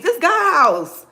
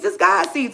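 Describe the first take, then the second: First: This God's house stretched slow, high and loud, God's hit hard; a bishop scolding the church, dragged out slow and loud; slow preached emphasis. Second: Imitating the bishop, pitched up and louder; a bishop scolding the church, preached high and loud; mock preacher call-out. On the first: Retold or imitated. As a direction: land every word like a pulpit pound. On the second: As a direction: call it out from the pulpit. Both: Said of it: "He said".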